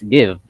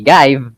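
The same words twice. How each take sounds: First: The vowel is a short 'i' as in sit. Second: The vowel is a long 'i' as in five. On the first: The speaker calls it right. "what you say is give" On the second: The speaker calls it wrong. "you don't say give"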